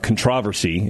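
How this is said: It is said in a British pronunciation.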